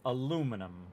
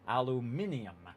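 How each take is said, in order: First: The word has four syllables, without a 'min' sound. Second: The word has five syllables, with a 'min' sound. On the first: This is the way people in the US say it. "as opposed to aluminum, is how, again, the U S people say it" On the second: This is the British and European way to say it. "The min in the center of aluminium"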